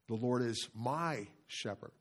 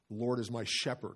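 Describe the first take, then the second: First: The stress falls on "my". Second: The stress falls on "shepherd".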